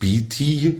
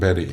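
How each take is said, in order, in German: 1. Die erste Silbe klingt wie 'beat'. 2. Die erste Silbe klingt wie 'bet'. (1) "Also eben nicht Beatty" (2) "Amerikaner sagen Betty"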